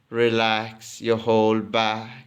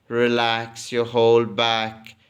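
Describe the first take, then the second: No difference in how they are said.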